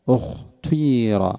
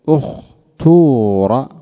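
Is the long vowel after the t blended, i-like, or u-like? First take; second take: blended; u-like. First: The long vowel blends a u-colouring into the i. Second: The long vowel after the t is a pure u. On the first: "ويجوز الإشمام" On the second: "ويجوز أن تقول اختور"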